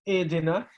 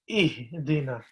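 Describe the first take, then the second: First: The h is said with little breath. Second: The h is said with audible breath. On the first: The speaker calls it wrong. "it's not like ihdina" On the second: The speaker calls it right. "There has to be that just a little bit ha sound in there"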